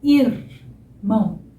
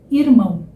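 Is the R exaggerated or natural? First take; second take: exaggerated; natural. First: The R is articulated in an exaggerated way. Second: The R is articulated naturally and lightly. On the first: "Tô exagerando um pouquinho" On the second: "Vou falar agora naturalmente"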